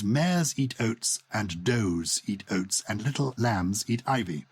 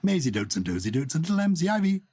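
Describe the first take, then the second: First: It is said slowly and clearly. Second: It is said quickly, the words running together.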